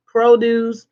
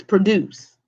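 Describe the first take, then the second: First: Produce stressed on PRO with a full long o; noun PRO-duce. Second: Produce with a reduced first syllable, stress on DUCE; verb pro-DUCE. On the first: Teacher warning students not to mix them up, PRO-duce. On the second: Teacher contrasting the verb for students, pro-DUCE. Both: Shown as a demonstration. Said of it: "confused with the produce versus produce".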